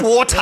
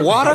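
First: The word is said with a non-American accent. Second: The word is said with an American accent. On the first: This is how it was said before moving. The speaker calls it wrong. "not water" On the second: This is how people speak in the States. The speaker calls it right. "when we're here, this is how we speak"

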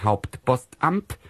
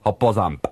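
First: It is said in standard German pronunciation. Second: It is said in a Rhineland Kölsch accent.

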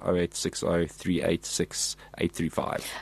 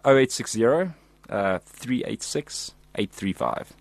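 First: The number is said quickly, run together. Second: The number is said slowly, in chunks.

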